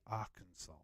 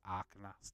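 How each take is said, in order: First: The word is said in its usual pronunciation. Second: The word is said as its spelling reads. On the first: "Is that how you say it?" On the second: "If you were reading it as an Englishman, that says Arkanas to me"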